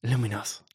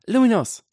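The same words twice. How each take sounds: First: Put-on restrained boy's spell call; mild, unforced incantation. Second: Put-on high, loud girl's spell cry; high-pitched battle call. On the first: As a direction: call the spell in your own register. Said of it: "rief Draco". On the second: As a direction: shout the spell high and sharp. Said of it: "rief Granger". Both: A narrator's reading.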